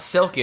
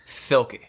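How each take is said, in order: First: The s sound is said clearly. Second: The s sound is said with a lisp. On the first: "it's not Silky" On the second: "Because that girl got a lisp"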